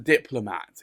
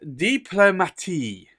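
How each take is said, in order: First: It is said like the English word 'diplomat'. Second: It is said with an added ending, 'diplomatie'. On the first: The speaker calls it wrong. "Like it's a diplomat ... but no, it's not" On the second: The speaker calls it right. "So this is diplomatie"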